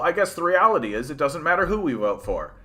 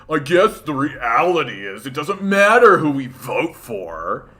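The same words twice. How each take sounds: First: It is read in a plain, sincere tone. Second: It is read in a condescending, mocking tone. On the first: The writer means it seriously. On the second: The writer is being mocked by readers.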